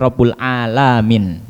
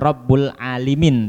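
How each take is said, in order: First: The vowel after the L is a. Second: The vowel after the L is i. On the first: The speaker calls it right. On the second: The speaker calls it wrong. "bukan dibaca"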